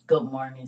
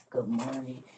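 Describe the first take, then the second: First: Louder greeting. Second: Said in the usual way. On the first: Real, not acted.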